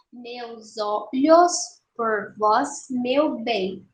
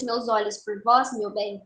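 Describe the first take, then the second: First: "Meus olhos por vós, meu bem" slowly in separate syllables; escansão silábica. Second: Said in the usual way. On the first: Shown as a demonstration. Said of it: "vamos fazer a escansão". ("Meus olhos por vós, meu bem" devagar, separando as sílabas) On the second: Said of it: "Bom, primeiro verso".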